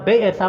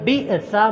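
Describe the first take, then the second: First: The first vowel is a long 'e' sound. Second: The first vowel is a short 'i' sound. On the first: The speaker calls it wrong. "मजहूल नहीं पढ़ना, बेअसा नहीं पढ़ना" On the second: The speaker calls it right. "बल्कि बिअसा"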